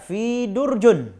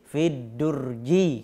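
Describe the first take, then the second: First: The noun ends with an -un sound. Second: The noun ends with an -i sound. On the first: The speaker calls it wrong. "Jangan dibaca fi durjun" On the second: The speaker calls it right. "tapi fi durji kalau dia beralif lam"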